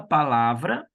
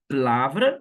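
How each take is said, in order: First: All three syllables are pronounced in full. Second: The first vowel drops, leaving two syllables. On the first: This is how Brazilians say it. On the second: This is how the Portuguese say it.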